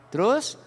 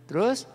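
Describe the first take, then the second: The two takes are said the same way.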